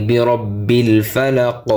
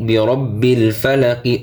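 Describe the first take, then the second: First: ফালাক closed on the k with no i; stopped ending. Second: ফালাকি ending on an audible short i; full final vowel. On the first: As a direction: stop on ফালাক, dropping the final vowel. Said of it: "অকফ করলে". (ফালাক-এ থেমে শেষের ই বাদ) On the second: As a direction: voice the last i of ফালাকি. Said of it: "জেরের উচ্চারণ হবে না অকফ করলে". (ফালাকি-এর শেষে ই উচ্চারণ) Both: Shown as a demonstration.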